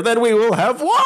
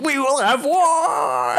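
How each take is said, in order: First: Laughing while mimicking a yell heard from outside; echoing shout heard through a door, played for laughs; distant war cry through laughter. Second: High, slow, hammed-up war cry; mock battle cry. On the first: Friend imitates the war cry echoing through the room, laughing. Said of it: "and I just hear". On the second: Retelling the paladin's outburst, a hammed-up high war cry. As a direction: bellow it like a crazed zealot. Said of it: "Just screams and runs out".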